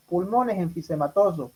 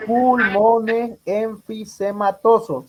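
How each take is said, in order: First: Said in the usual way. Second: "Pulmones enfisematosos" said slowly, each syllable drawn out; slow stressed answer. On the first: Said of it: "Si le ponen, por ejemplo". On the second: Shown as a demonstration. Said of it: "¿Y el hipersonoro?". ("Pulmones enfisematosos" dicho despacio y marcado)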